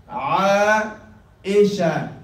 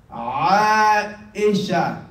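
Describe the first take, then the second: No difference in how they are said.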